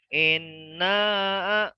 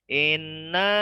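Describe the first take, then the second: First: The middle sound is held only briefly. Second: The middle sound is stretched out longer. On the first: "Inna itu kalau dua harokat" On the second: "Inna ya ditambahin"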